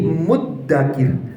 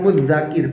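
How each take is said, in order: First: The middle consonant is a doubled d sound. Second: The middle consonant is a single dh sound. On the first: The speaker calls it right. "Maka bacanya menjadi muddakir" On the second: The speaker calls it wrong. "bukan mudzakir"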